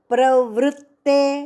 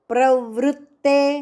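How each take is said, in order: First: The t sound in the middle is doubled. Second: The t sound in the middle is doubled.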